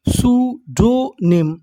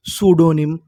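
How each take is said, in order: First: सूडोनिम slowly, split as सू, डो, निम; slow teaching breakdown of सूडोनिम; syllable by syllable. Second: Said in the usual way. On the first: Shown as a demonstration. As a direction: give each part of सूडोनिम its own beat. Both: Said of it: "तो हमारी meaning क्या बनी".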